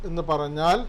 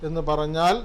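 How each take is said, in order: No difference in how they are said.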